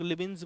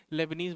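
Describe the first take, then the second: First: लेबिन्स in two syllables, ending "-bins"; alternative pronunciation of Leibniz. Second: लेबनीज ending in a long "-neez"; alternative pronunciation of Leibniz. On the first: Teacher showing how some people say it, लेबिन्स pronounced "LE-bins". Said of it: "कुछ लोग लेबिन्स बोलते हैं". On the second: Teacher showing how others say it, लेबनीज pronounced "leb-neez". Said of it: "कुछ लोग लेबनीज बोलते हैं". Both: Shown as a demonstration.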